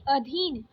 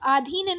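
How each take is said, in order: First: अधीन with a short first a; correct short first vowel. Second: अधीन with a long aa first; wrong long first vowel. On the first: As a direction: say अधीन as "uh-dheen". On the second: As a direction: say अधीन as "aa-dheen". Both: Shown as a demonstration. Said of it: "अधीन नहीं".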